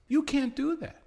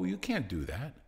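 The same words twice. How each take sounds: First: Much higher, louder you can't do that; alarmed objection. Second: Said in the usual way. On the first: Retold or imitated. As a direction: squeal it as a shocked protest. FCC objecting, said twice.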